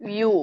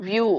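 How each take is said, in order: Both takes have the same delivery.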